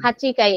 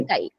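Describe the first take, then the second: First: The word keeps the full 'chi' syllable. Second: The 'chi' drops, leaving a doubled k.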